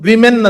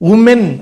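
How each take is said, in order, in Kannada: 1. ಮೊದಲ ಸ್ವರ ಸಣ್ಣ 'i' ರೀತಿ ಉಚ್ಚರಿಸಲಾಗುತ್ತದೆ. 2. ಮೊದಲ ಸ್ವರ ಬರೆದಂತೆ 'oo' ರೀತಿ ಉಚ್ಚರಿಸಲಾಗುತ್ತದೆ. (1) "ಅಂತ ಓದ್ತೀವಿ" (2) "ಅಂತ ಬರೆದು"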